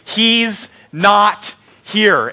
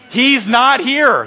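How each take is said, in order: First: "He's not here" very slow, weight on "He's"; stress on He's. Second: "He's not here" with "not" lifted high and punched; stress on not. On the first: Pastor quoting the angels to the congregation, very slow with stress on "He's". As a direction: draw out "He's" and let "not here" fall. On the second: Pastor repeating the angels' words, "not" stressed high and slow. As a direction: hit "not" hard and slow. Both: Shown as a demonstration. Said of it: "the angels just said in the Scripture reading".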